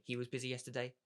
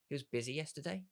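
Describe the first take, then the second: First: Said in the usual way. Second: "He was busy yesterday?" ending in a clear upward question lift on "yesterday"; curious tone. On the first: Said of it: "you can obviously say". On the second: Shown as a demonstration. Coach showing how to mirror a friend's words, curious rise. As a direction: echo it back as a genuinely curious question. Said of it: "in a curious tone".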